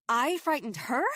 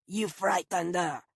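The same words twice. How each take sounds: First: Rising, louder disbelieving echo; attacked woman can't believe the accusation; incredulous. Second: A growling reproach from the groundskeeper; accusatory. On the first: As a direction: throw his words back in disbelief. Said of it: "I said, incredulous". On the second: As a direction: guardian of the dog snapping back at the stranger. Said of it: "his tone accusatory". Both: Acted.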